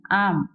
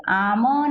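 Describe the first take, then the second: First: आम as one syllable, shut on "m"; closed final m. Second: आम broken slowly into "aa-ma", with a vowel after म; split aam, wrong way. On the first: Teacher correcting the split reading, आम closed on "m". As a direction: end आम on closed lips with no vowel after म. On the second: Teacher showing pupils what not to say, आम as "aa-ma". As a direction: add a full "a" to the end of आम. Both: Shown as a demonstration. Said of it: "आम नहीं".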